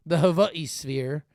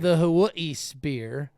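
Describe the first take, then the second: First: "Hawaii" said with a V, "Havaii"; "Hawaii sphere" stretched out, V in place of W; playful pronunciation. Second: "sphere" said as "speer", drawn out; "Hawaii sphere" stretched out, ending in "speer"; playful pronunciation. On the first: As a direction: slowly say "Hawaii" as "ho-VAH-ee". Second take, altered sounds. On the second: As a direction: slowly say "sphere" with a P for the F. Plays with saying the phrase. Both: Shown as a demonstration.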